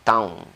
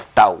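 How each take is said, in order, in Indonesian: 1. Diakhiri dengan bunyi sengau n. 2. Diakhiri dengan biasa, tanpa bunyi sengau. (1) "bukan taun" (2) "Jadi bunyinya tau"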